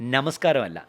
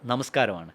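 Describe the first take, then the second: First: The first n is the mid-word alveolar n. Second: The first n is the word-initial dental n. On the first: The speaker calls it wrong. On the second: The speaker calls it right.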